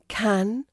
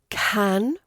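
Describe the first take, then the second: No difference in how they are said.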